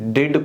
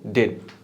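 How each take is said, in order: First: The final d is fully released. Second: The final d is held and cut off.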